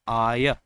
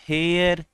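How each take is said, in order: First: The word begins directly with a vowel sound. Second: The word begins with an audible h sound. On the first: The speaker calls it right. "र का लोप होता है आया" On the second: The speaker calls it wrong. "जो कि सरासर गलत है बच्चों"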